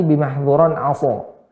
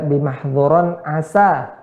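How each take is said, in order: First: ASO with mouth less open, heavy SO; "aso" darkened on the final syllable. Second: ASA with mouth opened on a light SA; slow "asa", open final A. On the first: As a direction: say "aso" thick and rounded. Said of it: "kalau ditutup atau tidak terlalu dibuka". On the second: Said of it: "asa harus dibuka". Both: Shown as a demonstration.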